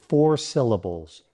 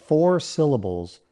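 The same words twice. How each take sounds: Both takes have the same delivery.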